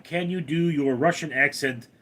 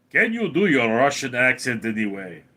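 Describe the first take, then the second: First: Said in the usual way. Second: Put-on Russian accent. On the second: Shown as a demonstration. Streamer answering a chat request, Russian accent.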